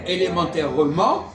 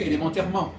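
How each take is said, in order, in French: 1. Tous les e du mot sont prononcés. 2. Les e non accentués sont supprimés. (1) "Il va dire élémentairement" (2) "et nous on dit élémentairement"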